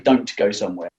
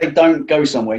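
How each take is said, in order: First: The final T of "don't" is clearly pronounced. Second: The final T of "don't" is dropped. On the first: The speaker calls it wrong. "you don't say" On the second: The speaker calls it right. "when you say"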